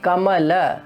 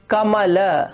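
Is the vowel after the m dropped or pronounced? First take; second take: pronounced; pronounced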